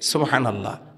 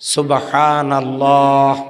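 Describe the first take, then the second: First: The word is said quickly and briefly. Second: The word is said slowly and drawn out. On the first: It earns the same reward as a slow saying. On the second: It earns the same reward as a quick saying.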